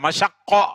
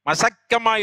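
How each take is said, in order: First: The middle consonant is an sh sound. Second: The middle consonant is a plain s sound. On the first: The original Arabic form. The speaker calls it right. "ஷீன் காஃப்" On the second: The locally altered everyday form. The speaker calls it wrong. "மசக்கமா இல்ல"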